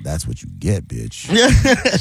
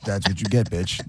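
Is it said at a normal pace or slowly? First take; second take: slowly; normal. First: It is said slowly and drawn out. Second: It is said at a normal pace.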